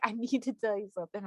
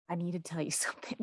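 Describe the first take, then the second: First: Said in the usual way. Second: Hushed, fast, ominous whisper with a laugh; dramatic whisper. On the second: Retold or imitated. Host imitating her urologist's dramatic warning, whispered. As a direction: whisper it like a grave secret. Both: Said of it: "that sounds so dramatic when I say it like that".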